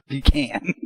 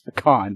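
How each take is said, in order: First: The word sounds like 'pee-can'. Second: The word does not sound like 'pee-can'. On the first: The speaker calls it wrong. "not pecan ... You ain't got peas in a can" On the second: The speaker calls it right. "the correct way is pecan"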